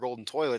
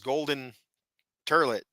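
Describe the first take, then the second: First: Toilet is said in a standard way. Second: Toilet is said the country way, as turlet.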